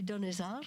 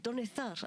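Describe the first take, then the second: First: The name is said with an English accent. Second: The name is said with a Spanish accent. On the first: The speaker calls it wrong. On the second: The speaker calls it right.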